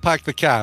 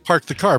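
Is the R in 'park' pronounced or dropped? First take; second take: dropped; pronounced. First: The R in park is dropped. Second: The R in park is pronounced. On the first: "if you lived in Massachusetts, you say" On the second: "No, you say park the car"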